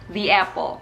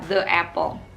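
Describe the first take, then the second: First: 'The' is pronounced 'thee' before apple. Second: 'The' is pronounced 'thuh' before apple. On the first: The speaker calls it right. "Lebih enak kan diucapkannya" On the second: The speaker calls it wrong.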